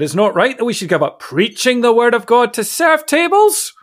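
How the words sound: Serving tables is said with a dismissive tone. Serving tables is beneath the preachers. "You could say it that way"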